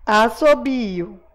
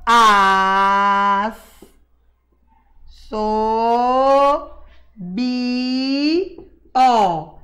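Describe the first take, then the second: First: Assobio said slowly as one joined word; whole word, slowly. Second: Slow, separated syllables As, so, bi, ó with a pause between each. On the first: Teacher rereads the whole word assobio for the children, slow and joined. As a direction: say assobio smoothly, slowed down. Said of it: "Esse I e esse O". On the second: Teacher showing children how to split assobio, slow separated syllables. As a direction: sound out As, so, bi, ó one syllable at a time. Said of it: "separa bem pausadamente". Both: Shown as a demonstration.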